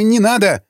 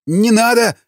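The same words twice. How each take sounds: First: Высоко, громче, «не» с нажимом; умоляй из последних сил; отчаянная мольба. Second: Высокий стон мольбы, «надо» протяжно; умоляй со стоном; простонал. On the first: Повторная мольба. (пленный снова умоляет пощадить) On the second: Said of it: "простонал тот". (пленный стонет, умоляя не рубить руку) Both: A narrator's reading.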